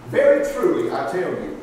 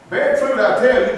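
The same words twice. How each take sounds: First: Very truly, I tell you said hushed and breathy, with little weight; hushed scripture opening. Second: Very truly, I tell you said loud and weighty, with tell hit hard; emphatic scripture opening. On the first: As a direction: lean in and say Very truly, I tell you almost in a whisper. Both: Shown as a demonstration. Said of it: "he's putting emphasis on the verse".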